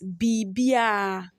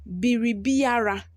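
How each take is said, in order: First: The R sound is dropped entirely. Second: The R sound is clearly pronounced. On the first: "In tree pronunciation, we pronounce it as" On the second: "The next one here is"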